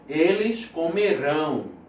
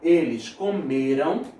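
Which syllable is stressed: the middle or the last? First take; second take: last; middle. First: The stress falls on the last syllable. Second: The stress falls on the middle syllable. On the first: The action will happen in the future. "a sílaba tônica é aqui" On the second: The action already happened. "a sílaba tônica é aqui"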